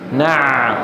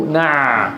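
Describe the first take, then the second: First: The ain sound flows on through a narrow passage. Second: The same.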